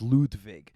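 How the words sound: The name is said with German pronunciation. "the German pronunciation's Ludwig"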